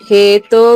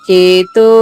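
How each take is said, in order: Both takes have the same delivery.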